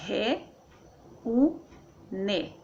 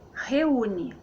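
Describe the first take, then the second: First: "re, u, ne" in three separate beats; syllable by syllable. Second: Said in the usual way. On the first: Shown as a demonstration. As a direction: pause between re, u and ne. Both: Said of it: "Então fica assim".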